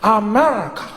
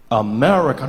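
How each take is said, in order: First: Said in the usual way. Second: America said low and husky; low husky America on request. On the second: Shown as a demonstration. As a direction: drop America deep into a husky rasp. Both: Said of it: "No, the husk".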